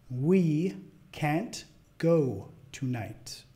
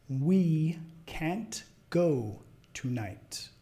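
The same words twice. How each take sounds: Both takes have the same delivery.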